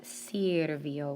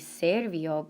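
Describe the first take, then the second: First: The first vowel is an i sound. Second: The first vowel is an e sound. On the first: The speaker calls it right. "but sirvió with an I" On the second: The speaker calls it wrong. "It's not going to be servio"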